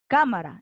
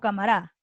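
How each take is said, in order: First: The stress is on the first syllable. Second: The stress is on the last syllable. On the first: The speaker calls it right. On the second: The speaker calls it wrong.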